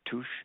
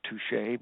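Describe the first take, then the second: First: The word is said with a French pronunciation. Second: The word is said with an English pronunciation. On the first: The speaker calls it right. "it's French French uh, pronunciation" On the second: The speaker calls it wrong. "not touche"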